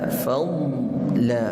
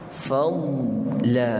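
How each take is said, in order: The two takes are said the same way.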